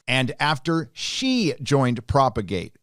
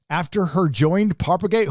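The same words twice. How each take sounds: First: Slow, pointed correction, leaning on "she"; corrective stress on "she". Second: "joined" stressed, "Propagate" rising in disbelief; incredulous rereading. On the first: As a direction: hit "she" deliberately to fix the mistake. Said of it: "if I'm busting on your grammar". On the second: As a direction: reread "her joined" pointedly, as a glaring mistake. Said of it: "I'm busting on your grammar". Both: Shown as a demonstration.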